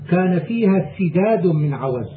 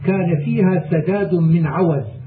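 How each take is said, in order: First: The first syllable has the vowel i: sidad. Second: The first syllable has the vowel a: sadad. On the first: It means enough to get by. The speaker calls it right. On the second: It means uprightness in religion and conduct. The speaker calls it wrong.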